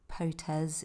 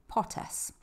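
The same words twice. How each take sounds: First: The word ends with a buzzing z sound. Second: The word ends with a hissing s sound. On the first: The speaker calls it wrong. "It's not Potes, it's not Potes. There are no Z's in Spanish" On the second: The speaker calls it right. "So yeah, Potes"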